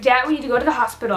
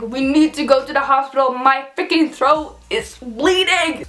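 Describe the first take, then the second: First: Quick, urgent rush of words; hurried retold plea. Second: Urgent repeat, slowing heavily towards "bleeding"; insistent retold plea. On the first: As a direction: rattle it off as if rushing to dad. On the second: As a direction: spell it out for dad, dragging out "My freaking throat is bleeding". Repeats plea after dad's "What?.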